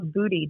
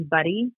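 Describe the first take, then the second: First: "Booty", long oo in place of the short u of Buddy; slow imitation of Buddy misspoken as "Booty"; mispronounced Buddy. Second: Said in the usual way. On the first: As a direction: say "Booty" with an oo, imitating an accented slip. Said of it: "because of his accent, he said". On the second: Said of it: "he pronounced her cat's name wrong".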